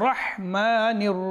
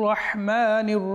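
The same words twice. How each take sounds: No difference in how they are said.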